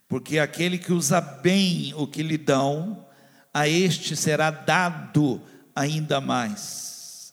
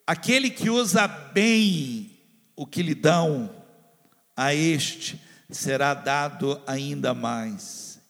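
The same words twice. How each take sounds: First: Said in the usual way. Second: Aquele que usa bem o que lhe dão drawn out slowly, every word weighted; slow repeat for emphasis. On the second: Shown as a demonstration. Pastor repeats the verse slowly so it enters the heart. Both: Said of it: "Vou, posso repetir isso?".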